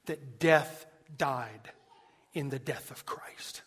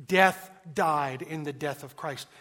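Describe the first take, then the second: First: Hushed whisper. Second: Proclaimed. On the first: Preacher whispering Owen's line to the congregation, hushed. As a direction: drop to a whisper on the quote. Quoting Owen, drops to whisper. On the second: Repeats Owen line at full voice. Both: Acted.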